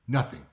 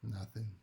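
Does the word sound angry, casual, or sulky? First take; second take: angry; sulky. First: It sounds curt and angry. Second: It sounds hesitant and sulky. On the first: Something is wrong and the listener caused it. "the same word, but they said it in a different way" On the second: Something is wrong and they want to be asked more. "Maybe they say it like this"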